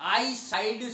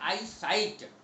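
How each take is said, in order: First: The word ends with a d sound. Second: The word ends with a t sound. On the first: The speaker calls it wrong. "आई साइड शब्द गलत है" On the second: The speaker calls it right. "सही शब्द है आई साइट"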